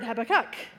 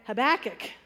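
First: The stress is on the third syllable. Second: The stress is on the second syllable. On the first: "other people emphasize the third" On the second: "with the emphasis on the second"

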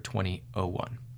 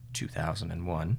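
First: The year is read as twenty oh one. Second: The year is read as two thousand one. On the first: The speaker calls it wrong. "you won't hear 2001" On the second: The speaker calls it right. "would be 2001"

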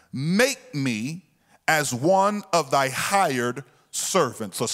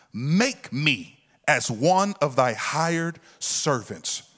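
Both takes have the same delivery.

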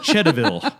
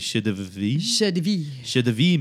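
First: The name is said with American English pronunciation. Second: The name is said with French pronunciation. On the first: "I'm going to use the freedom pronunciation. So I'm going to call it" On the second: "if I were going to be fancy in French, I guess it'd be"

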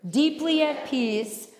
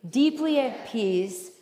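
No difference in how they are said.

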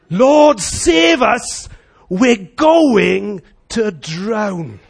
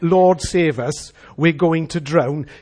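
First: It is said urgently, loud and desperate. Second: It is said calmly, with little energy. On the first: The speaker truly fears for their life. The speaker calls it right. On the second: The danger does not sound real. The speaker calls it wrong.

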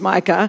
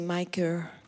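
First: It is said in an Australian accent. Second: It is said in an American accent.

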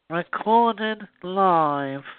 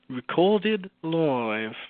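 First: It is said with a pinched, nasal voice. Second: It is said in a normal voice.

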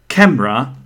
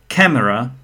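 The two takes are said the same way.

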